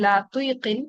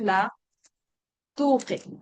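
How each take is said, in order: First: An extra 'i' vowel comes before the k. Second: The k follows 'tu' directly, with no extra vowel. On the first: The speaker calls it wrong. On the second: The speaker calls it right.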